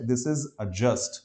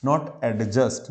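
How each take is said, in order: First: Adjust said slowly with a short "uh" and no d, "ajust"; slow careful adjust, no d sound; correct pronunciation. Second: Adjust said with an "e" sound and the d, "ed-just"; mock-wrong adjust, d sounded; wrong pronunciation. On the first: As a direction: drop the d in adjust. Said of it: "अ sound है". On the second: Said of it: "ना तो ए sound है". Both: Shown as a demonstration.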